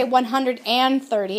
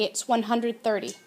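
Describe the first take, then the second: First: "one hundred and thirty" with "and" said clearly; wrong version with and. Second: Said in the usual way. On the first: Shown as a demonstration. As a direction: show the mistake, landing on "and". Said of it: "you don't say".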